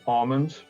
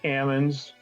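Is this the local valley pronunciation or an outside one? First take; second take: outside; local. First: It uses a pronunciation heard outside the valley. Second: It uses the local Central California valley pronunciation. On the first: This is how people elsewhere say it. "other people might say" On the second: This is how people in the valley say it. "we say"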